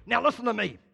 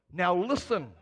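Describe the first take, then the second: First: Firm rebuke stressing listen; stern and strong. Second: A firm word with listen stressed; stern and strong. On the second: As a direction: make listen a stern command. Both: Shown as a demonstration. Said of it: "the Greek's a lot stronger".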